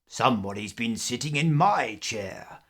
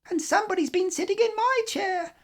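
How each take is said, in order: First: It is said in a deep, growly voice. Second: It is said in a shrill, squeaky voice.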